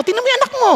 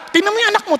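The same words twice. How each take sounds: First: Pitched even higher, more exasperated; nagging parent. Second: Higher exasperated parent voice; nagging parent. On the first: Parent repeating complaint to spouse, more exasperated and higher. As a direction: push the complaint up a notch. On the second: Parent complaining to spouse about the naughty child, exasperated. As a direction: complain like a fed-up mother. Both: Retold or imitated. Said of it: "di ba".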